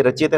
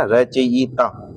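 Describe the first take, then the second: First: Said in the usual way. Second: रचयिता very slowly as "ra-cha-yi-ta"; slow, drawn-out रचयिता for dictation; syllable by syllable. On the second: Shown as a demonstration. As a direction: spell out each sound of रचयिता. Teacher breaks word into syllables.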